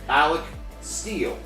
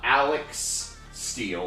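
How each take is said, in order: First: The first name ends in a plain K sound. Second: The first name ends in a KS sound. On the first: The speaker calls it right. "A L E C" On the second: The speaker calls it wrong. "Not Alex Steele"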